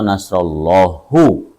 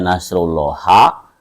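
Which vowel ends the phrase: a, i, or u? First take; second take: u; a. First: The phrase ends with a u vowel. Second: The phrase ends with an a vowel. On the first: "atau nasrullahu" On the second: "Salah jika dibaca nasrullaha"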